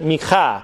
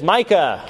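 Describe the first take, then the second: First: The name is said with a Hebrew pronunciation. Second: The name is said with an English pronunciation.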